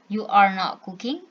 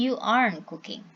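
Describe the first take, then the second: First: Every word is said in full, uncontracted. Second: "Are not" is shortened to "aren't". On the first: "we can contract this" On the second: "and you aren't cooking"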